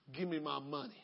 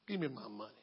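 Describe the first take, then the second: First: Low, quiet menacing demand; demanding creditor. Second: Even lower, quieter demand; more menacing repeat. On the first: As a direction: say it low and threatening. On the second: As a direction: drop it down, colder. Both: Acted.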